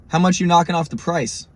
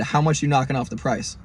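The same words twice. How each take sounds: First: Firm question, pitched up; pointed, higher-pitched haggling; serious haggling. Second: Level, matter-of-fact haggling; understated no-nonsense demand; dead serious. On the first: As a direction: retell a no-nonsense demand for a discount. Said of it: "And I'm serious". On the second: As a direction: ask it in earnest, pitch settled down. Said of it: "And I said it like that". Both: Retold or imitated.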